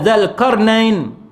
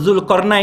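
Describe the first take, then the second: First: The first syllable has the vowel 'a'. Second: The first syllable has the vowel 'u'. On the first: "tapi di baris atas kan" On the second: "Kita sebut Zulkarnain kan"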